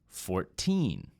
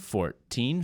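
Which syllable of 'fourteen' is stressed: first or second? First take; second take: second; first. First: The stress is on the second syllable. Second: The stress is on the first syllable. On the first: "on the second syllable, and it stretches out a bit" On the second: "you might hear the teen numbers with stress on the first syllable"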